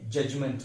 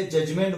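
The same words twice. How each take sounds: First: जजमेंट as "JUJ-munt", weak ending; correct pronunciation. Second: जजमेंट with a full "MENT"; common mispronunciation. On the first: Teacher correcting the common form, correct pronunciation. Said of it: "लेकिन ये जजमेंट है". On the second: Teacher quoting how people say it, wrong pronunciation. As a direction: say juj-MENT with clear e. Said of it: "हम उसे जजमेंट बोलते हैं". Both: Shown as a demonstration.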